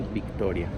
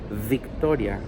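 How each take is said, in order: First: The first sound is a soft B. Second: The first sound is a buzzing English V. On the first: The speaker calls it right. "we say Victoria" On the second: The speaker calls it wrong. "We don't say Victoria in Spanish"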